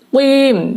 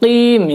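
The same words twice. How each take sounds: First: The lips push forward and round on the q. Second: The lips stay unrounded on the q. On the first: "harus monyong. Qim dari maju ke mundur" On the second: "tidak perlu monyong. Udah langsung qim"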